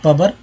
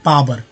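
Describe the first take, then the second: First: The first vowel is a short a sound. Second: The first vowel is a long aa sound. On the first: The speaker calls it wrong. "प में अ लगा के बोलेंगे पबर, ऐसा होता है क्या?" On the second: The speaker calls it right. "ना अ होगा ना ऊ होगा, आ होगा"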